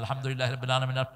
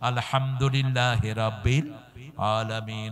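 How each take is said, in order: First: It is recited fast, without pauses. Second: It is recited slowly, with pauses.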